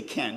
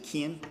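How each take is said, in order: First: Said in the usual way. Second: "Ken" said like "Kin", New Zealand short i; mild Kiwi "Ken" with the vowel clipped to "Kin". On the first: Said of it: "he didn't say Ken". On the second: Retold or imitated. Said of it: "he didn't say Ken, he said Ken".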